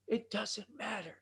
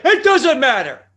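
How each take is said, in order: First: Said in the usual way. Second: Slow, much louder booming wrestler catchphrase; The Rock impression. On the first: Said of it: "Or as The Rock would say". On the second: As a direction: roar it slowly like a wrestling star. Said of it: "as The Rock would say".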